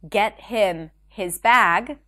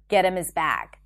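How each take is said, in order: First: The h sounds in 'him' and 'his' are pronounced. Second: The h sounds in 'him' and 'his' are dropped. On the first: "Instead of saying get him his bag" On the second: "So him and his turn into and is"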